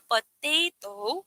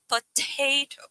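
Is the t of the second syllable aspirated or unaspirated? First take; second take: unaspirated; aspirated. First: The second-syllable t has no puff of air. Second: The second-syllable t has a puff of air. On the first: The speaker calls it wrong. "Instead na potato" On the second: The speaker calls it right. "we say potato"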